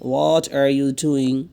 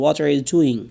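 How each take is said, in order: First: What are you doing? spelled out word by word, very slow; slow it right down for learners to copy; slow teacher's repeat; very slow drill. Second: Said in the usual way. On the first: Shown as a demonstration. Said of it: "What are you doing? (first take)". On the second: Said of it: "What are you doing? (repeated slowly)".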